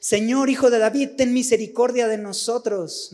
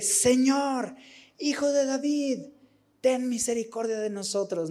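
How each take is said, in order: First: Loud, high cry for mercy, a blind man calling out; mock shout of a beggar calling to Jesus; shouted plea. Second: High, pleading cry that sinks softer to the end; imitating a desperate cry for mercy; desperate plea. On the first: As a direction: shout it over the crowd to be heard. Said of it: "Su única opción es gritar". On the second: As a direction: beg with more desperation, voice rising high then falling away. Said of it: "Con más desesperación".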